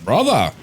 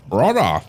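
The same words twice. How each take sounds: First: Higher, loud space marine bellow of brother; gruff space marine. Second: BRUDDA, loud space marine bellow; gruff space marine. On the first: Acted. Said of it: "That's like my usual Space Marine voice". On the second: Shown as a demonstration. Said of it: "It's always like B R U D D A".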